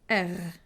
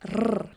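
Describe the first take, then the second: First: The R is made in the throat. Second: The R is rolled with the tongue tip. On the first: The speaker is from southern Sweden. "a little bit like the French R" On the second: The speaker is from northern Sweden. "The two northern thirds of Sweden are rolling the R"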